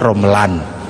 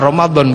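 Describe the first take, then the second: First: The middle consonant is an l sound. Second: The middle consonant is a d sound. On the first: "punyanya lo" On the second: "Enggak punya dot"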